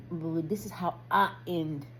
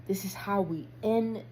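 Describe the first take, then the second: First: Slower, with "I" set apart and stressed; "I" stretched and emphasized. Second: Said in the usual way. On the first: Real, not acted. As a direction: correct yourself by leaning on "I". Corrects "we" to "I.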